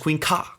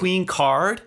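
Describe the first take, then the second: First: The second word is cut to a short ka. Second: The second word ends with its full final sounds. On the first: "It essentially gets pronounced as Queen Ka" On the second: "not Queen Card"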